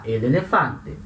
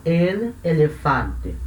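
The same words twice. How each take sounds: First: "el elefante" linked smoothly into one flowing "elelefante"; joined words. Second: "el elefante" said slowly, a clear break between el and elefante; each word apart, the wrong careful way; separated words. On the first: Teacher showing students how natives link it, smooth and joined. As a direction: run el straight into elefante like a native. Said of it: "Não, vai juntar". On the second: Teacher showing students the choppy non-native way, slow and separated. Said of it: "não vai falar separadinho". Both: Shown as a demonstration.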